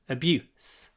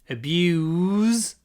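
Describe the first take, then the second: First: Short clipped vowel, ending with an s sound. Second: Long vowel, ending with a z sound. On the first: It is used as a noun. "noun. ... a clipped" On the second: It is used as a verb.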